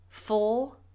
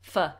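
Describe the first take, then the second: First: The word is said with a full vowel. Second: The word is said with a reduced vowel. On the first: "In its strong form we say for" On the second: "In its weak form we say f"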